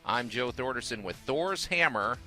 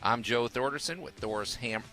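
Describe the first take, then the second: First: The phrase is said slowly. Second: The phrase is said quickly. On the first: The speaker calls it right. "I gotta say it slower" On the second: The speaker calls it wrong. "I've been told I say it too fast"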